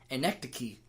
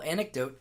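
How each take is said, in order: First: The word ends with a ch sound. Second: The word ends with a plain t sound. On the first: The speaker calls it wrong. "I used to call anecdote anecdoche" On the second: The speaker calls it right. "I've since learned my lesson in pronunciation"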